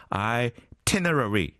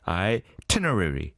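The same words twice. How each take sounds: First: Itinerary drawn out slowly for repeating; practice model. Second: Itinerary at a somewhat quicker clip; said quickly. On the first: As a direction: model Itinerary syllable by syllable, eye-ti-ne-ra-ry. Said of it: "같이 해볼까요?". (Itinerary를 따라 하기 좋게 천천히) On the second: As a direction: run through itinerary a bit faster. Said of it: "빨리 하면". (itinerary를 조금 빨리 발음) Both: Shown as a demonstration.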